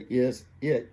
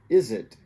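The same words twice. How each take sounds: First: The two words are said separately. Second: The z sound links into the next word. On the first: The speaker calls it wrong. "you don't say is it" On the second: The speaker calls it right. "you say is it"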